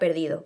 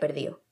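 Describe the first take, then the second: First: The d between the final vowels is pronounced. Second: The d between the final vowels is dropped. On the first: "en la palabra perdido" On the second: "que se pronuncia perdido"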